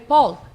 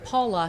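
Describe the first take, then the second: First: The name is said without its final syllable. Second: The name is said with its final syllable. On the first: "he would say" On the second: "instead of saying Paula"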